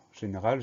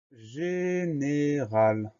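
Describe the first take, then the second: First: Said in the usual way. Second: Very slow, syllable by syllable; drawn-out dictation. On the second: Shown as a demonstration. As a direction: stretch every syllable for pupils writing it down. Dictée, mot annoncé lentement. (dictée syllabe par syllabe, très lente)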